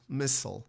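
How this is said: It is said in an American accent. "in American English is missile"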